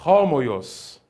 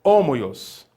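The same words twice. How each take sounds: First: Homoios with an h breathed at the start; rough breathing. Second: Homoios with no h, starting on the o; without aspiration. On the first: Teacher shows the right reading with aspiration. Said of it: "mas eu falei". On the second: Teacher shows how he did not say it. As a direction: say homoios with a clean vowel start. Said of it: "eu não falei". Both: Shown as a demonstration.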